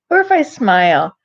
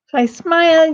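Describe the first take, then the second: First: Said in the usual way. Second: "smile" said through a broad grin, a bit higher and louder. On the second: Shown as a demonstration. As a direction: show the smile while saying "If I smile".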